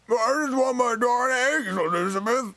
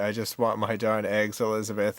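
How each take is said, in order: First: It is said in George's character voice. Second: It is said in the speaker's own voice.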